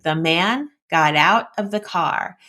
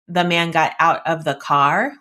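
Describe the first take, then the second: First: It is split into subject and action phrases. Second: It is read flat with no expression. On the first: The speaker calls it right. "the subject phrase and the predicate or action phrase" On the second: The speaker calls it wrong. "which is zero prosody"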